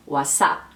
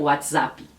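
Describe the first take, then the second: First: WhatsApp as wa-SAP, no t; Spanish WhatsApp. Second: WhatsApp with an added i, wats-A-pi; Brazilian WhatsApp. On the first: Teacher demonstrating Spanish WhatsApp, no t. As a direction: drop the t in WhatsApp. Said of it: "Eles colocam WhatsApp". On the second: Teacher contrasting Brazilian WhatsApp, extra i. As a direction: add an i after the p in WhatsApp. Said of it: "como a gente faria o WhatsApp". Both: Shown as a demonstration.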